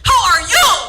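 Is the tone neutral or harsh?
harsh. It is asked in a harsh, upsetting tone.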